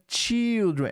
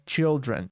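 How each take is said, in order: First: The first vowel is a long i sound. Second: The first vowel is a short i sound. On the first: The speaker calls it wrong. "Não é children" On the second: The speaker calls it right. "Com E, né? Children. O som do I curto"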